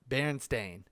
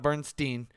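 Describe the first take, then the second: First: The name ends with a 'stain' sound. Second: The name ends with a 'steen' sound. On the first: The speaker calls it right. "Little did we know it's uh, Berenstain Bears" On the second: The speaker calls it wrong. "not Bernstein"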